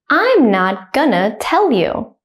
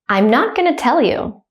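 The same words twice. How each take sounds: First: It is said slowly and carefully. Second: It is said quickly at natural speed. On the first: "I will say it slowly first" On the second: "then at a native speaker speed second"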